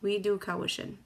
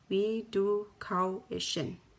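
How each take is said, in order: First: It is said at normal speed. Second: It is said slowly.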